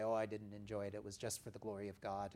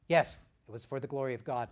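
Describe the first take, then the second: First: Quick, softer falsely humble brush-off; false modesty. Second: Louder, quick joyful owning of it; glad and proud. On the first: Retold or imitated. Believer brushing off a compliment, falsely humble. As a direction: wave away the praise with fake humility. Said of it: "We don't need to say". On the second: Shown as a demonstration. Preacher showing the right answer to praise, joyful. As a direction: own the gift with open delight. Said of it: "that's a good way to do it".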